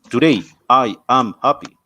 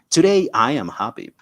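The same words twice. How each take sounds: First: The words are separated by pauses. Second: The words are joined smoothly together. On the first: The speaker calls it wrong. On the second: The speaker calls it right.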